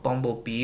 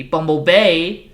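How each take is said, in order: First: Said in the usual way. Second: Bumblebee drawn out, loud, slow, rising; drawn-out name. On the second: Shown as a demonstration. Introducing the yellow Camaro, a slow loud rising announcement.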